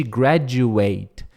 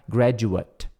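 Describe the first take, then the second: First: "graduate" with a full "ate" at the end, like eight; verb pronunciation. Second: "graduate" with a weak, reduced final "at"; noun pronunciation. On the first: Teacher contrasting the verb form for students, clear "ate". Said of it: "em vez de graduate". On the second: Teacher showing the adjective form for students, weak "at". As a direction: soften the end of "graduate" to a light "at". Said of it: "fica graduate". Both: Shown as a demonstration.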